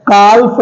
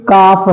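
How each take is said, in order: First: काल्फ said "kalf" with the l sounded; wrong reading demo. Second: काफ said "kaaf", l silent; correct pronunciation. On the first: Teacher to class, showing the wrong reading. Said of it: "काल्फ नहीं है ये". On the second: Teacher to class, giving the right reading. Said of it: "काफ है". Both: Shown as a demonstration.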